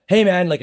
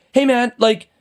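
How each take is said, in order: First: Mild conciliatory opener, slightly raised pitch; de-escalating. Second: High, confrontational retold comeback; aggressive challenge. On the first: Retold or imitated. Parker trying to calm the angry driver, de-escalating. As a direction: open gently to calm him down. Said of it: "de-escalate". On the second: Man in a bad mood confronting the driver, aggressive challenge. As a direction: act out snapping back at a stranger. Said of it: "responding in an aggressive manner".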